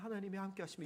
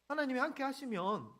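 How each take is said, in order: First: It is said in a meek, gentle tone. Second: It is said in a sharp, irritated tone. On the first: The speaker humbly accepts the claim. "좀 순순했으면" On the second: The speaker doubts and challenges the claim. "말투가 이런 거예요"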